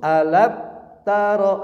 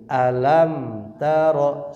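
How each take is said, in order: First: The m sound is cut off abruptly. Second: The m sound flows on slightly. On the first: The speaker calls it wrong. "salah ini ya" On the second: The speaker calls it right. "mengalir se sedikit"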